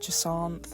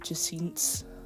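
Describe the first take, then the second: First: The name ends with a clear th sound. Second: The name ends with an s-like sound.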